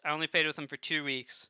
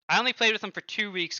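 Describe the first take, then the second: First: Said in the usual way. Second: Louder, higher, stressing "played"; raised voice on "two weeks"; emphatic first take. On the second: Shown as a demonstration. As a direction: push "only played" to make the point.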